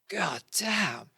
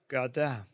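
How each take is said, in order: First: It is said with awe and excitement. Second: It is said flatly, without excitement. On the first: The speaker is amazed by what they see. The speaker calls it right. "meant to be like in awe, they're like like you would go" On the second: The speaker seems unmoved by what they see. The speaker calls it wrong. "you don't sound like you're uh, that excited"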